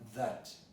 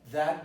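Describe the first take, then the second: First: The word has a weak, reduced vowel. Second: The word has a full, open vowel. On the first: It links two clauses. "when it is a connective" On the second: It points to a specific thing. "it's not a demonstrative as it is that boy"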